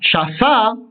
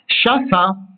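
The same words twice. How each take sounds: First: The stress is on the last syllable. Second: The stress is on the first syllable. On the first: She places it, in the present. "si vous placez l'accentuation sur la dernière syllabe" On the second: She placed it, in the past. "Si vous mettez l'accentuation sur l'avant-dernière syllabe"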